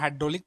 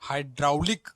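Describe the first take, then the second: First: The second syllable is said as 'dro'. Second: The second syllable is said as 'drau'. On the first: This is how it is read aloud. "पढ़ने के time में हाइड्रोलिक पढ़ते हैं" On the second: This follows the spelling. "हाइड्राउलिक हाइड्राउलिक"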